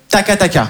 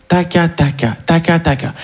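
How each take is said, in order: First: Said in the usual way. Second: Whispered taca. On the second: Shown as a demonstration. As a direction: whisper taca taca under your breath. (taca taca chuchoté doucement) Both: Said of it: "mais en chuchotant".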